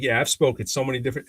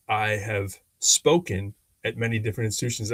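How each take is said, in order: First: Quick, loose "I've spoken", shortened to "I've spoke"; casual default speech. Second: Careful "I have spoken", each word fully said; proper formal speech. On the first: Retold or imitated. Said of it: "my default is to say". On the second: Shown as a demonstration. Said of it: "I should have said".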